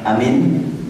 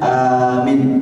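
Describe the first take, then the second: First: The first vowel is short. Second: The first vowel is long. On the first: He is safe. "A-nya pendek, min-nya pendek" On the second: Make safe, grant it. "bagaimana kalau dipanjangkan A-nya?"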